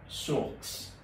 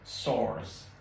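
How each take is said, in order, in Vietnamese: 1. Đọc theo kiểu Pháp. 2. Đọc theo kiểu Anh.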